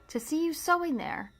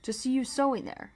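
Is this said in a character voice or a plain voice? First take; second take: plain voice; character voice. First: It is said in the reader's ordinary voice. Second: It is said in a put-on character voice. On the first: The speaker calls it wrong. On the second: The speaker calls it right.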